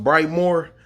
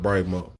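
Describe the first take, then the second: First: The name ends with an r sound. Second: The name ends without an r sound. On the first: This is the official pronunciation. "It's pronounced Brightmore" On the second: This is how local people say it. "the people call it Brightmo"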